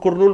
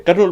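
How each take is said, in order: First: The first syllable has an 'oo'-like vowel. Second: The first syllable has an 'uh'-like vowel. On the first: Outsiders who follow the spelling say it this way. The speaker calls it wrong. "करनूल को के यू से लिखते, कुरनूल कुरनूल बोलते आ रहे हैं" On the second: Local people say it this way. The speaker calls it right. "हम ये local लोग जो बोलने वाले करनूल बोलते हैं इसको"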